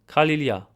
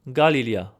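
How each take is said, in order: First: It is said with a Western Armenian pronunciation. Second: It is said with an Eastern Armenian pronunciation. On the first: "in Western Armenian" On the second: "In Eastern"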